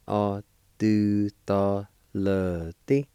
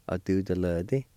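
First: "A do ta le ti" slowly, each syllable held; syllable-by-syllable pronunciation. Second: Said in the usual way. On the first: Shown as a demonstration. Teacher showing learners "A do ta le ti" syllable by syllable. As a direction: draw "A do ta le ti" out in separate syllables. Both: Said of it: "is pronounced like this".

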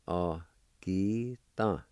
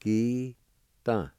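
First: "Agita" repeated very slowly for the learner; patient slow repeat of "Agita". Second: "Agita" said slowly, syllable by syllable; drawn-out demo of "Agita"; teacher modelling "Agita" slowly; Cherokee pronunciation. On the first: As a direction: stretch out "Agita". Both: Shown as a demonstration. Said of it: "It's pronounced like this".

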